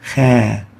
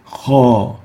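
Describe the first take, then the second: First: The vowel is light and thin. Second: The vowel is heavy and full-mouthed. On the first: The speaker calls it wrong. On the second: The speaker calls it right. "We say"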